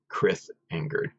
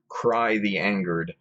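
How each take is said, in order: First: The name is said as 'Chris Angered'. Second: The name is said as 'Cry the Angered'. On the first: The speaker calls it wrong. "sorry for butchering it the first time" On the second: The speaker calls it right. "remember the pronunciation"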